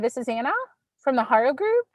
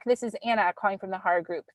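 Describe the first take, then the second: First: The voice sounds hesitant and insecure. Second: The voice falls at the end and sounds confident. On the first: The speaker calls it wrong. "it was not confident sounding" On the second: The speaker calls it right. "make your voice go down at the end of your sentence"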